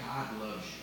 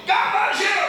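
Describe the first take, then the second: First: Much softer and a bit lower, gentle; soft God loves you. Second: Much higher and louder, bursting; loud excited God loves you. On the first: Pastor contrasting gospel delivery for the church, soft and low. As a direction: say it softly, almost under the breath. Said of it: "Or we can say". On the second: Pastor contrasting gospel delivery for the church, loud and high. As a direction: proclaim it with big excitement. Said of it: "We can tell people". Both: Shown as a demonstration.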